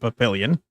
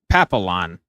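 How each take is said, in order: First: The word is said with an extra 'ee' sound. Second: The word is said without the extra 'ee' sound. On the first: "I'm going to keep saying Papillion" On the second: "How would you not pronounce the I's in Papillion?"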